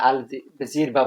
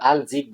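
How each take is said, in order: First: An 'r' sound comes before the 'ba'. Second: The word ends in a short 'jib' sound. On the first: "এগুলো সঠিক উচ্চারণ না" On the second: "এগুলো সঠিক উচ্চারণ না"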